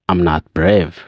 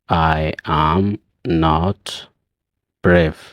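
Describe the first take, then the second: First: I am is shortened quickly into I'm. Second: I am is said as two full words.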